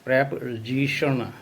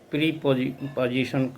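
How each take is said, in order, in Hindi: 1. पहले अक्षर में छोटा 'एह' स्वर है। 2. पहले अक्षर में लंबा 'ई' स्वर है। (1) "जबकि इसका उच्चारण प्रेपोजिशन होता है" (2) "इसको बहुत लोग प्रीपोजिशन कह देते हैं"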